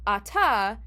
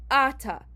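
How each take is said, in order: First: "Ata" said a-TA, final syllable stressed; last-syllable stress. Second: "Ata" said AH-ta, first syllable stressed. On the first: Teacher giving normal Hebrew pronunciation, "Ata" stressed on TA. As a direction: put the weight on the closing "ta" of "Ata". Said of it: "it happens on the last syllable". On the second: Teacher reading the marked Aleph, "Ata" stressed on AH. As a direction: put the weight on the opening A of "Ata". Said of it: "which means that you pronounce it". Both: Shown as a demonstration.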